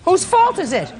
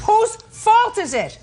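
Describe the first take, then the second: First: Fault stressed, high and sharp; demanding question. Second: Fault stretched out, high and slow; slow insistent question. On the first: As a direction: press him on fault. Judge repeats her question. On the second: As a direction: drag out each word, insisting. Judge repeats, slower, insistent. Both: Real, not acted.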